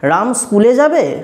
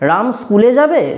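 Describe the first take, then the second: First: It is said in a questioning, curved voice. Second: It is said in a questioning, curved voice.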